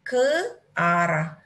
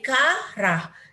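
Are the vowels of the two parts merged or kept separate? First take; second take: separate; merged. First: The two vowels are said as separate syllables. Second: The two vowels merge into one syllable. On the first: The speaker calls it right. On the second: The speaker calls it wrong.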